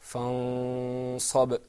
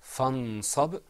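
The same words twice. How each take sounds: First: "Fansab" with the n not fully articulated; "Fansab", drawn-out nasal hum before the s; with ikhfa. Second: "Fansab" with a clear n, rising at the end; "Fansab", distinct n, offered for repetition; without ikhfa. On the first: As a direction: hide the noon of "Fansab" in a long hum. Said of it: "It wasn't articulated completely". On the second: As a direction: model "Fansab" with the noon articulated. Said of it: "that second time, you heard". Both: Shown as a demonstration.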